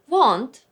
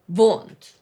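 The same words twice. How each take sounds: First: The word begins with a W sound. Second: The word begins with a V sound.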